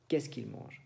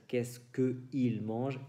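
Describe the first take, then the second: First: "qu'il" run together; elided French. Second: "que il" kept apart; awkward unelided French. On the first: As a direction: glide into "qu'il". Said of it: "Entonces decimos". (francés con elisión, "qu'il") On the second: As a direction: say "que il" with no elision. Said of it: "Porque decir". (francés sin elisión, "que il") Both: Shown as a demonstration.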